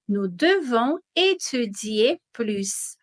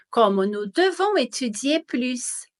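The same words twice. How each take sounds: First: Slow, careful repeat of "Nous devons étudier plus"; slow model sentence. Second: Said in the usual way. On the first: Shown as a demonstration. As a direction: spell it out slowly for students. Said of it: "teacher repeating the example slowly". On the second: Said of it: "first take at normal pace".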